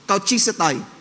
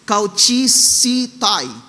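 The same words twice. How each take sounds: First: Simplified pronunciation in a Filipino style. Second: Greek-style pronunciation with a long e vowel. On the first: "Tagalog, one lang tayo, Pilipino" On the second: "it is pronounced as e, parang mahabang e"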